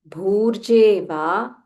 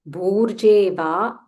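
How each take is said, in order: The two takes are said the same way.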